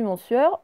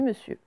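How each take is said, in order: First: The first syllable is a full nasal 'mon'. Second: The first syllable is a short, weak 'me'. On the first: This is the old, original way of saying it. The speaker calls it wrong. "on ne prononce plus mon sieur" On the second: This is how the word is said today. The speaker calls it right. "on dit monsieur ... on dit me"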